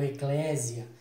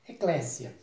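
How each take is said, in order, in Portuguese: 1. A consoante do meio é um Z sonoro. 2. A consoante do meio é um S sibilante. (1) "com Z. Então essa sonoridade com Z está errada" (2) "Você faz a pronúncia com o som de S"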